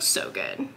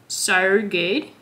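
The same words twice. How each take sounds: First: It is said in a North American accent. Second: It is said in an Australian accent.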